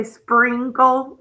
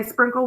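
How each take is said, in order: First: "sprinkle" with a long ee, spreenkle, drawn out slowly; E sound. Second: "sprinkle" with a short i as in "in". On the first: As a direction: stretch the vowel of "sprinkle" into ee. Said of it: "like it's an E". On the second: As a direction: say "sprinkle" by the spelling rule, short i. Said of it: "We don't say sprinkle". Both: Shown as a demonstration.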